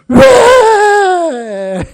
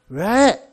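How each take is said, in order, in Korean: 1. 괴로운 비명을 지르듯 외칩니다. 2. 짜증 섞인 목소리로 말합니다. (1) "절규하는 그러한 외침의 외도 있습니다" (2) "짜증나는 그런 목소리의 왜도 있고요"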